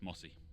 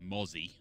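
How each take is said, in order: First: The middle consonant is a hissing s sound. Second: The middle consonant is a buzzing z sound. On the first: The speaker calls it wrong. "he completely mispronounced" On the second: The speaker calls it right.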